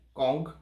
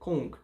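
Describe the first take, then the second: First: The vowel sounds like 'o'. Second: The vowel sounds like 'u'. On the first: This is the original Chinese pronunciation. The speaker calls it right. "a pronúncia puxa mais pro O do que pro U" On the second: This is the standardized Western pronunciation. The speaker calls it wrong. "padronizou-se, né, a fala aqui no Ocidente como Kung"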